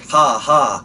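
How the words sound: The laugh sounds flat and robotic.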